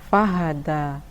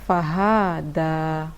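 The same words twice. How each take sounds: First: The final vowel is kept short. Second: The final vowel is drawn out long. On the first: The speaker calls it right. "Hanya dibaca pendek" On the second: The speaker calls it wrong. "ada yang membaca fahada"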